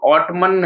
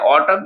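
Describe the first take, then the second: First: The word ends with an audible n sound. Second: The word ends on m with no n sound. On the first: The speaker calls it wrong. "अगर ऑटमन पढ़ेंगे तो गलत हो जाएगा" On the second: The speaker calls it right. "ये जो एन हमारा क्या होता है, साइलेंट हो जाता है"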